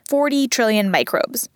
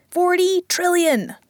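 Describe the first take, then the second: First: Said in the usual way. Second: "Forty trillion!" slow, higher, stressed on "Forty"; amazed emphasis. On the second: Real, not acted. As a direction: stretch out "Forty trillion!" in wonder. Amazed repeat of the number.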